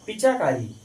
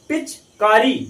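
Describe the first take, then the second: First: An extra 'a' vowel is heard after 'pich'. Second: No vowel is heard between 'pich' and 'kari'. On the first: "अगर ए लिख देंगे तो पिचाकारी हो जाएगा" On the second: "चा वहां साइलेंट हो रहा है"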